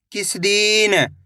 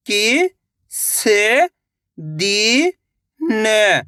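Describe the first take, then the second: First: Said in the usual way. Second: "किस" then "दिन" drawn out very slowly as separate words; sounding out slowly. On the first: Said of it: "इनको आपस में लाके पढ़ना है". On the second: Shown as a demonstration. Teacher reading slowly word by word to children. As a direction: stretch out "किस" and "दिन" one at a time. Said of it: "एक अक्षर का उच्चारण करके".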